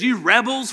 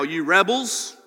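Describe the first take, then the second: First: Loud, higher angry call; fed-up Moses yelling at the people. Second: Frustrated. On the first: Retold or imitated. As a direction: bark it at them in anger. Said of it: "essentially yell at them in anger". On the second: Acted. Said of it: "I read it like that".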